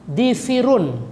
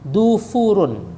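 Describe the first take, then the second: First: Both early vowels are i sounds. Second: Both early vowels are u sounds. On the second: "dua-duanya doma"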